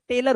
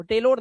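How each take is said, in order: First: टेलर ending in a short "lur"; correct ending. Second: टेलर ending in "lore"; wrong ending. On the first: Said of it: "मैं टेलर हूं". (टेलर के अंत में छोटा अ) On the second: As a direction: echo the mistake, टेलर with long O. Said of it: "टेलर नहीं हूं जी". (टेलर के अंत में लंबा ओ) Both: Acted.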